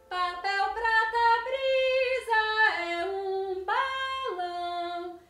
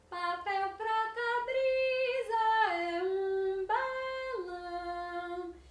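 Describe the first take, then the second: First: It is said loudly, almost shouted. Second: It is clearly articulated at moderate volume.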